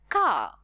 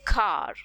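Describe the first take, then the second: First: The final R is not pronounced. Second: The final R is clearly pronounced. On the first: "we would not stress on the R ... we would term it as car in a British accent" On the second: "when it comes to an American accent, since we stress R's, we would say car ... the R is prominently sounded there"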